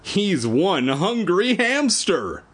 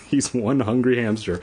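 First: Hammed-up tagline. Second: Flat laughing repeat. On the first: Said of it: "And the tagline is". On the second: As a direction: chuckle through the tagline. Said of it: "You're not even trying". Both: Shown as a demonstration.

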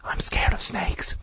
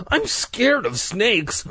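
First: Frightened whisper; soft voice. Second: High, slow, frightened admission; timid fear. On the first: Mike confessing his fear of snakes, in a whisper. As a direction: whisper it, barely any voice. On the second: Mike confessing his fear of snakes, timid and high. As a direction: draw it out in a small high voice. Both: A narrator's reading. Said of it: "Mike uttered in a soft voice".

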